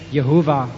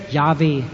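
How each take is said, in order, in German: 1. Der Name wird mit drei Silben ausgesprochen. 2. Der Name wird mit zwei Silben ausgesprochen.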